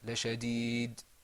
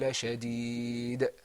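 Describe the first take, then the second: First: The final d stops flat with no bounce. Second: The final d ends with a bouncing echo. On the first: The speaker calls it wrong. "it wasn't" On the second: The speaker calls it right. "you'll see that it is kind of like a bouncing sound"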